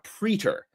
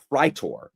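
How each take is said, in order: First: The first vowel does not sound like 'eye'. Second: The first vowel sounds like 'eye'. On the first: The speaker calls it wrong. "not a praetor" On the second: The speaker calls it right. "and then a praetor"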